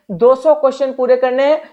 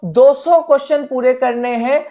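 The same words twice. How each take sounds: The two takes are said the same way.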